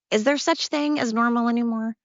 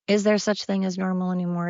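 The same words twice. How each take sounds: First: Exasperated question. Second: Said in the usual way. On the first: Real, not acted. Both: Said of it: "repeats the question".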